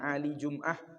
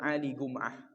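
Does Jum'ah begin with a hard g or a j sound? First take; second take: j sound; hard g. First: Jum'ah begins with a soft j sound. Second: Jum'ah begins with a hard g sound.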